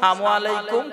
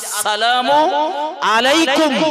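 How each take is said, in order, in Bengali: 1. প্রথম শব্দটি ছোট করে একটি সংক্ষিপ্ত রূপে বলা হয়। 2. প্রথম শব্দটি পুরোপুরি উচ্চারণ করা হয়। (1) "কিছু লোক রয়েছে জানে না বোঝে না" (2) "সালামের শুদ্ধ উচ্চারণ"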